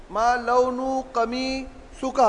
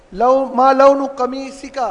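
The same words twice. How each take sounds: First: ما لون قمیصک stretched out very slowly and much softer; very slow, softer drill. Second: Slow model question. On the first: Teacher slows the question right down for students, quiet and drawn out. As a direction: spell out each word of ما لون قمیصک slowly for students to copy. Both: Shown as a demonstration.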